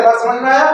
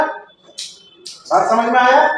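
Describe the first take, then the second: First: Said in the usual way. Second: Each word drawn out, asking if they got it; a slowed, patient repeat of the question; slow drawn-out check. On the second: Shown as a demonstration. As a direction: stretch the question out slowly. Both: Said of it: "repeated question".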